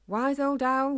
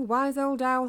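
First: Put-on loud, higher call stretching old; shouting. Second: Put-on loud, higher repeated call leaning on old; shouting again. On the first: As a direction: shout up into the trees for the owl. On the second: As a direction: call once more into the dark. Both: A narrator's reading. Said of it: "he shouted".

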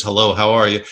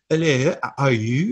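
First: Said in the usual way. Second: Put-on hinting at a heavy French accent on "Hello, how are you?"; a light imitation of a French actor's English accent. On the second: Co-host imitating Christopher Lambert's heavy French accent. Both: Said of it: "very heavy French accent".

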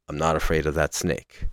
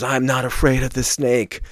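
First: Softer, lower, held-back retold line; quiet and grave. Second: Retold scream. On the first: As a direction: pull it down to a quiet, grave hush. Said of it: "quietly, but still gravely says". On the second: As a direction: push it up in pitch like a half-scream. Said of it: "he screams".

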